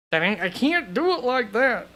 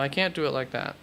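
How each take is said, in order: First: Higher, swooping mock-protest voice; hammed-up protest with the pitch leaping up; playful exaggerated repeat. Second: Said in the usual way. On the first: Host playfully repeating himself while deliberating over rankings, hammed-up high voice.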